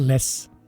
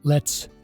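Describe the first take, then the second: First: The t sound is dropped. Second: The t sound is clearly pronounced.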